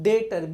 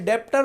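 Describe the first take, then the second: First: The b sound is silent before the t. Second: The b sound is pronounced before the t. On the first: The speaker calls it right. "डेटर बोलना। ... बी silent है।" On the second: The speaker calls it wrong. "बेटा डेप्टर मत बोलना"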